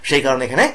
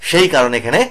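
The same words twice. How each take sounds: No difference in how they are said.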